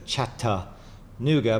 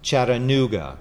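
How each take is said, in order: First: The T is pronounced as a hard T. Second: The T is pronounced like a soft D. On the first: This is how northern outsiders say it. "how Yankees pronounce it with a hard T" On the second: This is how locals traditionally say it. "the T is kind of like a soft D"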